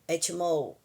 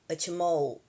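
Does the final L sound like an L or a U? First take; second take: U; U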